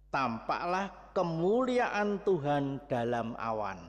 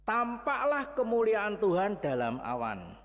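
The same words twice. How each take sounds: First: Verse read out slowly and evenly; slow scripture reading. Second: Higher, with the stress on "Tampaklah"; emphatic repeat. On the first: Preacher reads the verse to the congregation, slow reading. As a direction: read "Tampaklah kemuliaan Tuhan dalam awan" slowly, word by word. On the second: Preacher repeats the verse to stress it, emphatic. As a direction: press hard on "Tampaklah" and let the line fall. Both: Shown as a demonstration.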